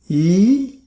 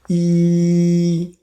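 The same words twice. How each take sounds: First: The pitch rises from mid to high. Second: The pitch stays high and level. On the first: "Second tone, ... going up" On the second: "First tone, E flat"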